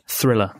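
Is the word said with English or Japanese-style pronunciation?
English. It is said with English sounds, th and l. "the most difficult word for Japanese people to pronounce was thriller"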